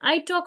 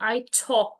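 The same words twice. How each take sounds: First: It is said in the speaker's plain accent. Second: It is said in a put-on British accent. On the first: The speaker calls it right. "সহজভাবে শুরু করেন" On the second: The speaker calls it wrong. "এভাবে করে যদি British accent এ"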